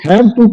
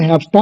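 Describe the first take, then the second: First: The two words are said separately and fully. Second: The two words blend into one 'hafta' sound.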